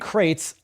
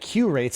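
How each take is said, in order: First: It is said as one syllable, 'crates'. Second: It is said as 'queue' plus 'rates'. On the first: The speaker calls it right. "so you pronounce it crates" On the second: The speaker calls it wrong. "I was pronouncing it Q rates"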